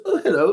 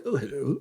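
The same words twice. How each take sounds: First: Lightly imitated royal lady, pitched up; Camilla. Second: Charles. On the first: Camilla bumps into them and says hello, lightly voiced. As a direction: raise it a little for her greeting. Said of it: "She goes". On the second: Retold or imitated. Charles returns Camilla's hello, quietly imitated. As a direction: answer her quietly in a mock royal voice. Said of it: "Like that".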